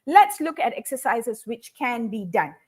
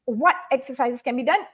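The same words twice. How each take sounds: First: "Let's look at exercises which can be done" said as a statement, falling at the end; stated, not asked. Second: "what exercises can be done?" with a rising question tune; asked as a question. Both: Shown as a demonstration. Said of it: "I've rephrased it as".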